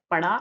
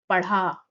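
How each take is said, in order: First: पढ़ा said with a plain flapped ड़, no breath after it; column A word. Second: पढ़ा said with a breathy aspirated ढ़ flap; column B word. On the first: Teacher reading the ड़ column, पढ़ा as a plain flap. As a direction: say पढ़ा as पड़ा, a clean tongue flap. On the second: Teacher reading the ढ़ column, breathy aspirated पढ़ा. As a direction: push air after the flap in पढ़ा. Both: Shown as a demonstration. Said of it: "इनमें अंतर बताना".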